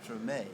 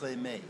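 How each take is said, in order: First: Only the final vowel has a full 'ay' sound. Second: Both vowels have a full 'ay' sound. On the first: "written with only an accent over the second e, pronounced treme" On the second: "an accent on both of the e's, which would mean in French it'd be pronounced as trémé"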